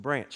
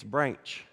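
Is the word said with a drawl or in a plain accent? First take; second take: plain; drawl. First: The word is said in a plain local accent. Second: The word is said with a drawn-out Texas drawl. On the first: "You say branch" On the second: "the way my mom says with her West Texas drawl"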